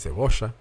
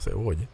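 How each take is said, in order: First: The double L has the Argentine pronunciation. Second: The double L has a non-Argentine pronunciation. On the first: "ellos dicen cebolla" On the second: "y no cebolla"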